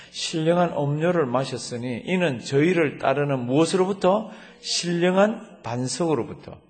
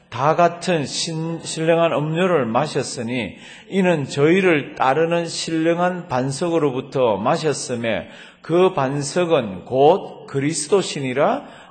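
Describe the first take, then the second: First: 무엇으로부터 stressed as a question to the listeners; teaching reread. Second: Loud, slow unison scripture reading; scripture read aloud with the congregation, loud and slow; congregational reading aloud. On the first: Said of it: "제가 천천히 읽어볼게요". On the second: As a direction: read it out together, slow and strong. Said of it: "다 같이 읽습니다". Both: Shown as a demonstration.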